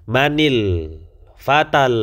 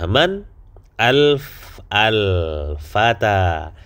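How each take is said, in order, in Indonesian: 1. Huruf n diberi vokal i, lalu menyambung ke depan. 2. Huruf n tidak punya vokal sebelum al-fata.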